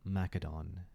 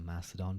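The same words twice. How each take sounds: First: The c is said hard, like a k. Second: The c is said softly, like an s. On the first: It follows how ancient Greek sounded. "is the way I would do it" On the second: It follows the usual modern usage. "I imagine most people probably do use the Macedon pronunciation. It does sound cool"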